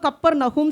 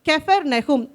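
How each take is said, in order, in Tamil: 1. பெயர் Kap ஒலியில் தொடங்குகிறது. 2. பெயர் Kef ஒலியில் தொடங்குகிறது. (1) "தமிழில் நம்ம கப்பர் நஹூம் சொல்லிடுறோம்" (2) "ஆக்சுவல் ப்ரொனவுன்சியேஷன் வந்து அதுதான்"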